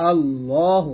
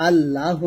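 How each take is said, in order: First: "আল্লাহ" with a heavy rounded o, al-law-hu; correct heavy "আল্লাহ". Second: "আল্লাহ" with a thin, open a in the middle; wrong thin "আল্লাহ". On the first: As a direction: thicken the middle of "আল্লাহ" to a long aw. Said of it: "মানে সঠিক উচ্চারণটা এখানে দেওয়া আছে". ("আল্লাহ" মোটা ল দিয়ে, আল্লোহু) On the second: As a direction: say "আল্লাহ" light, as al-laa-hu. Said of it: "এখানে কিন্তু আল্লাহ না". ("আল্লাহ" পাতলা লা দিয়ে) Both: Shown as a demonstration.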